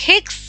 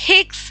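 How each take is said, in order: The two takes are said the same way.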